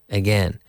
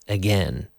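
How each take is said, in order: Both takes have the same delivery.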